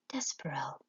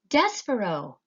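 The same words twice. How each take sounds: First: The name is whispered softly. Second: The name is shouted loudly.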